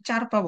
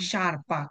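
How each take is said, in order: First: The word begins with a ch sound. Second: The word begins with an sh sound. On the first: The speaker calls it wrong. "অনেকে চারপা বলে" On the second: The speaker calls it right. "শারপা, কারণ এস জি এর পরের শব্দটা হচ্ছে ই"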